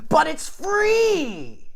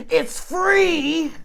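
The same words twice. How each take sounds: First: High, very slow, loud bark; barked like a dog. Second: Shrill high yell right in his face; screaming. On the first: Cross-eyed lady barks back at him like a dog. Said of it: "and like a dog, she says". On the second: Big lady at the bus stop screams in his face. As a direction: scream it at him, outraged. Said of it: "some big fat lady screams in your face". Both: Retold or imitated.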